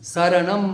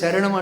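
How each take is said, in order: First: The word begins with an 's' sound. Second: The word begins with an 'sh' sound. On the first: The speaker calls it right. "సా ఉంటుంది. సీత సా. అర్థమైంది కదా? శరణం అనాలి" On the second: The speaker calls it wrong. "మనం తెలుగులో శరణం అంటాం కదా, పాలీలో ఆ శా ఉండదు"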